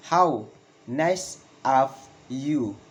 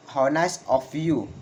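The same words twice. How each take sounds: First: Slow, word by word, "you" falling; slow falling exclamation. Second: "how nice of you" in one run, falling on "you"; falling exclamation. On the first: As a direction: pause after each word for learners. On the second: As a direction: model it connected, "you" dropping. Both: Shown as a demonstration. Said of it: "Valid intonation in exclamation".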